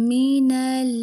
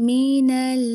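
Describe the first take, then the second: The two takes are said the same way.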